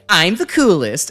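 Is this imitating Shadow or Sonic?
Sonic. It is said in a Sonic impression.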